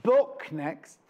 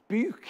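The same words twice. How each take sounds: First: Said in the usual way. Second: "Book" said the Dudley way, like "buke", pitched higher; Dudley accent. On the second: Retold or imitated.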